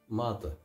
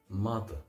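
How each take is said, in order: No difference in how they are said.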